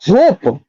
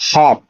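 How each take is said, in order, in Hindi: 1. स्वर लंबी 'oh' ध्वनि है। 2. स्वर छोटी खुली 'aw' ध्वनि है। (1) "क्या पढ़ोगे, होप? नहीं" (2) "नहीं, हॉप"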